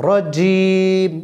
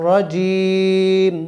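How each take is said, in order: No difference in how they are said.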